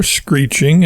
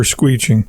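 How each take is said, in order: First: Said in the usual way. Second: "screeching" said as "SKWEE-ching"; blended made-up word. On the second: Acted. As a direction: say "screeching" with a "skw" start and no r. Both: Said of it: "screeching and squealing at the same time".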